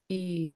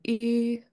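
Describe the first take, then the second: First: The long vowel is said on a low pitch. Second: The long vowel is said on a high pitch.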